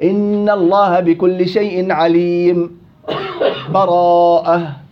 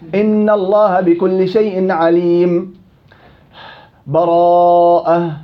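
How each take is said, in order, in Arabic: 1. تكون سكتة قصيرة بلا تنفس قبل الكلمة الأخيرة. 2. يكون وقف تام مع التنفس قبل الكلمة الأخيرة. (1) "الوجه الثالث اللي قال عنه أبو صهيب اللي هو السكت" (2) "قطع الجميع بدون بسملة"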